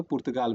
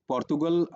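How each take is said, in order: First: पुर्तगाल with "pur" first and long "gaal" last; Hindi-spelling pronunciation. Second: पोर्तुगल with "por" first and short "gul" last; English-style pronunciation. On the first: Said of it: "जब उसे लिखा होता है". (पुर्तगाल को हिंदी वर्तनी जैसा बोलें) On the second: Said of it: "हम इंग्लिश में कहते हैं". (पोर्तुगल को अंग्रेज़ी ढंग से बोलें) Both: Shown as a demonstration.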